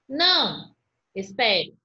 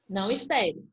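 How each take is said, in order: First: There is a pause after 'não'. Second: There is no pause after 'não'. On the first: The listener is told to wait. "O outro fala assim, ó, não, calma aí, espere" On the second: The listener is told to go without waiting. "E o outro, não espere, pode ir"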